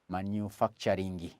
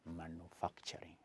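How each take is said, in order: First: The word ends with an extra vowel after ng. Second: The word ends cleanly on ng, no extra vowel. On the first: The speaker calls it wrong. "I have another friend who says manufacturing. Ngi" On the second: The speaker calls it right. "the right pron pronunciation is manufacturing"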